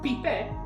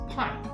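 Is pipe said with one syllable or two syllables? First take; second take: two syllables; one syllable. First: The word is split into separate syllables. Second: The word is said as one syllable. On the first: It imitates a Japanese learner's pronunciation. The speaker calls it wrong. "she pronounces it syllabically" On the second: It is the usual English pronunciation. The speaker calls it right. "it's not pipe, it's pipe"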